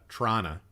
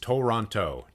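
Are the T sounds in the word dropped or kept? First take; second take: dropped; kept. First: Only the first T is pronounced. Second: Every T is pronounced clearly. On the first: "you lose all the T's except the first one and ... most of the O's turn into U's" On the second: "If you enunciate it, ... You get all the T's in there"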